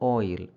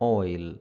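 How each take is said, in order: Both takes have the same delivery.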